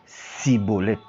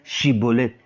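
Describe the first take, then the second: First: The word begins with an 's' sound. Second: The word begins with a 'sh' sound. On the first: The speaker belongs to the rival group. The speaker calls it wrong. "ils disaient plutôt cibolette" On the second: The speaker belongs to the local group. The speaker calls it right. "ils n'ont pas cette capacité-là de prononcer chi"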